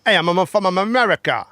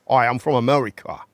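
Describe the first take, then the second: First: Louder, more put-on American accent; hammed-up American accent; better American accent. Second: A weak American accent attempt; half-hearted American accent. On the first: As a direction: push the American accent harder. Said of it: "So that's better then". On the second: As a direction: try an American accent, barely. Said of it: "your best American accent". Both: Shown as a demonstration.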